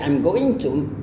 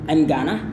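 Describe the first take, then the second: First: Every syllable of going to is fully pronounced. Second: Going to is shortened into two quick syllables. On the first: "I'm going to is reduced to" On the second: "reduced to I'm gonna"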